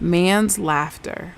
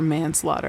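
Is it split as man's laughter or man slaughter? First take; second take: man's laughter; man slaughter. First: It is split as man's plus laughter. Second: It is split as man plus slaughter. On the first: The speaker calls it wrong. "I remember seeing someone say man's laughter" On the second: The speaker calls it right. "for manslaughter"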